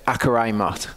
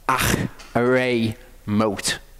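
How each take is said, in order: First: The middle consonant is a hard K sound. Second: The middle consonant is a throaty, raspy H sound. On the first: The speaker calls it wrong. "you think it says Akarai Mot" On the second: The speaker calls it right. "It's like a H with a bit of a Ch"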